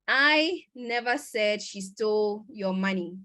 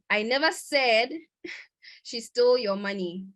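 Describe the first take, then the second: First: The stress is on the word I. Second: The stress is on the word said. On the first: Someone else said it, not the speaker. "which means someone else did, but not me" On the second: The speaker may have implied it without saying it. "Maybe I implied it whilst I was speaking"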